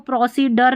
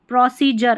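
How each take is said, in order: First: The middle consonant is a d sound. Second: The middle consonant is a j sound. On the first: The speaker calls it wrong. "अब इसको प्रोसीडर नहीं बोलते" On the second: The speaker calls it right. "डी का उच्चारण ज हो रहा है"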